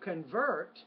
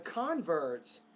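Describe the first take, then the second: First: The stress is on the second syllable. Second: The stress is on the first syllable. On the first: It is used as a verb. "when it's a verb, the stress is on the second syllable" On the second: It is used as a noun. "When it's a noun, the stress is on the first syllable"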